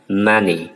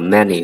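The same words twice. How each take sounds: First: The first vowel is open, as in cat. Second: The first vowel is mid, as in bed. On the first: The speaker calls it wrong. "chứ không phải là many" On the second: The speaker calls it right. "mà đọc là many, tức là âm E này"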